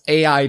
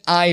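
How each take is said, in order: First: It is said as two separate letters. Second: It is said as the single word 'eye'. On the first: "pronounce it as A I" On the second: "pronouncing it I Dysomnium Files is also equally valid"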